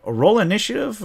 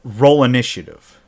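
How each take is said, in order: First: Higher, disbelieving echo of the call; can't believe it, with minutes left; incredulous. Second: Said in the usual way. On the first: Retold or imitated. Players questioning the GM's call, incredulous and high.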